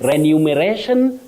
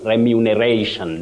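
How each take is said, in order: First: The second syllable is not said as 'mu'. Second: The second syllable is said as 'mu'. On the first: The speaker calls it wrong. "Remuneration, no" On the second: The speaker calls it right. "You have remu, mu"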